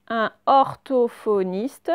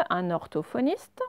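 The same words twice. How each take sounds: First: Drawn-out careful reading; slow reading aloud. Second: Said in the usual way. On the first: Shown as a demonstration. Teacher reading the word slowly to pupils. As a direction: read it out slowly for the class.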